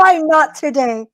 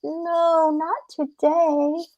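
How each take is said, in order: First: High, pushed-out question; impatient storybook coyote; demanding coyote. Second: Small, high, drawn-out plea; pleading rabbit. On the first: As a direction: challenge the captive in a raised voice. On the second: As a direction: beg off slowly in a soft, raised voice. Rabbit begs off when caught. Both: Acted.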